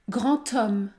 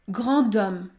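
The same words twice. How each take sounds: First: The words are linked with a 't' sound. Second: The words are linked with a 'd' sound. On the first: The speaker calls it right. "il faut prononcer le son T" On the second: The speaker calls it wrong. "Il ne faut pas dire grand homme"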